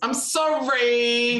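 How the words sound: It sounds grudging and dismissive, like a teenager.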